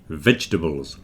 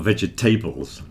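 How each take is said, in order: First: The stress is on the start, middle dropped. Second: The stress is on the end, middle fully said. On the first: The speaker calls it right. "The middle bit gets contracted... The stress is at the beginning" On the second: The speaker calls it wrong. "It's certainly not vegetables. Don't stress the tables at the end"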